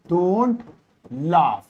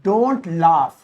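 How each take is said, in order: First: Don't, then laugh, each said apart with pauses; slow spaced dictation. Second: Said in the usual way. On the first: Shown as a demonstration. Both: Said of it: "तो वहां पे मैं कहूंगा".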